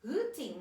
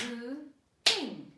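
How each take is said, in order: First: Said in the usual way. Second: HOOTING in two loud separate beats, HOO - TING; clapped syllables. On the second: Shown as a demonstration. Teacher clapping a word with children, HOOTING syllable by syllable. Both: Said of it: "Let's clap it".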